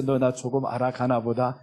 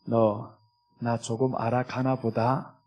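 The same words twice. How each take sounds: First: Lower, softer tender line; gentle voice of the Lord. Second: Lower, softer, slow fond murmur; tender voice of the Lord. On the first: The Lord fondly repeating it to the believer, soft and lower. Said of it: "그러지 않겠어?". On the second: The Lord gently telling the believer, lower and soft. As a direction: speak gently as a pleased father. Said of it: "우리 주님이 어떻게 얘기하시겠어요". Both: Acted.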